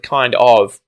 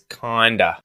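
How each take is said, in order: First: Both words are said fully and separately. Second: The words are squeezed together into one reduced word. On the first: "instead of kind of" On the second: "there was a good contraction here where he said the phrase kinda"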